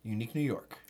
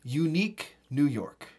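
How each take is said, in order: First: Faster, softer Unique New York; quick quiet tongue twister. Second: Slow, careful Unique New York; slow tongue twister demo. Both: Shown as a demonstration. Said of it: "a classic".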